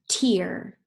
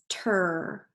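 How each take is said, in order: First: The vowel sounds like ear. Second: The vowel sounds like er. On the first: The speaker calls it right. "let's try it with ear" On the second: The speaker calls it wrong. "let's start it with er"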